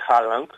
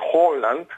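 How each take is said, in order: First: The first vowel sounds like 'ah'. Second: The first vowel sounds like 'oh'. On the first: The speaker calls it wrong. "και όχι Χάλαντ" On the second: The speaker calls it right. "είναι με νορβηγική προφορά"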